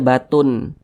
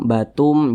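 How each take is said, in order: First: The tanwin is said as a clear n sound. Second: The tanwin is merged into an m sound. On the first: The speaker calls it wrong. "jangan dibaca batun" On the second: The speaker calls it right. "Jadi dibaca batum"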